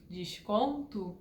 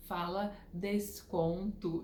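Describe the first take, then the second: First: "desconto" with carioca sh for the S; sotaque carioca. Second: "desconto" with a crisp S, no sh; corrected "desconto". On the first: Shown as a demonstration. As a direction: say "desconto" your Rio way, S as sh. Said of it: "com o meu sotaque". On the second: Retold or imitated. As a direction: slowly model "desconto" with a plain S sound. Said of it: "ficavam me corrigindo".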